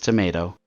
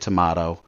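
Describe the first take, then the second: First: Tomato is said the non-British way. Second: Tomato is said the British way. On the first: The speaker calls it right. "it's spelled the same, I know. But it's it's tomato" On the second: The speaker calls it wrong. "you must be British"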